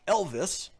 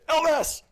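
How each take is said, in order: First: The name is said plainly, without excitement. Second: The name is said excitedly, like an exclamation.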